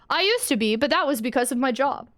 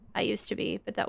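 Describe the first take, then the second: First: It is said in the dad's expressive voice. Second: It is said in Bee's flat, emotionless voice.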